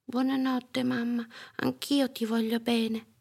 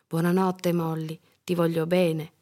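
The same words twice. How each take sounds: First: Put-on high, gentle child voice; small sleepy-time kid voice; little girl's goodnight. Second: Gentle mum in natural pitch; calm bedtime farewell; mother's goodnight. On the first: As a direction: answer mum sweetly, pitched up. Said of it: "disse Molly". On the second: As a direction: bid a child goodnight tenderly. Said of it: "disse la mamma". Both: A narrator's reading.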